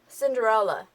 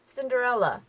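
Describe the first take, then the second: Both takes have the same delivery.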